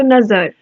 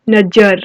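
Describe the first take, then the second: First: नजर said with a z, as nazar; नजर with a buzzing z for the nukta; correct nukta z sound. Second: नजर said with a plain j, as najar; नजर with a hard j, no nukta; wrong plain j sound. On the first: Teacher shows the right way: नजर with z. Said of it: "नुक्ता लगा है तो नजर". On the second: Teacher shows the wrong way: नजर with plain j. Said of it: "लेकिन नहीं". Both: Shown as a demonstration.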